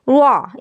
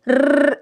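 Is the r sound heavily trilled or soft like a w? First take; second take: w-like; trilled. First: The r is softened so it sounds like w. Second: The r is pressed hard into several taps. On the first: "रा जो है वो वाव की तरह हो जाएगा, वाह इस तरह हो जाएगा" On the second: "बहुत ज़्यादा अगर दबाव डालेंगी, जमाव डालेंगी तो र इस तरह से हो जाएगा"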